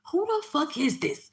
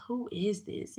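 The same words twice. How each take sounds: First: High, loud, drawn-out demand. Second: Restrained, coy question; trying to sound sexy. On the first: Demanding to know who the unknown caller is, loud and high. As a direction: raise pitch and volume, stretching the challenge. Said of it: "didn't wanna say it like that". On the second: Scared woman sweet-talking a possible killer on the phone, trying sexy. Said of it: "I'm trying to be sexy". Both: Retold or imitated.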